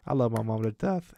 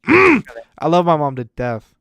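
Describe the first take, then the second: First: Said in the usual way. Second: Love my mom to death, said loud and drawn out; loud, slow declaration. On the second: Real, not acted. Son proclaiming love for his mom, loud and slow. Repeats line louder, slower.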